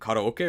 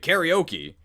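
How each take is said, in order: First: It is pronounced with Japanese sounds. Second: It is pronounced with English sounds. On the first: "the Japanese way" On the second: "the English way"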